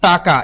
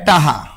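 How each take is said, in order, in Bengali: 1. এটা taka-র মতো বলা, k ধ্বনি সহ। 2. k হয়ে যায় h: taha। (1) "এটা হলো শুদ্ধ" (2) "বরিশালেরা কয় টাহা"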